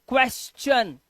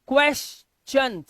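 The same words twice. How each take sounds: Both takes have the same delivery.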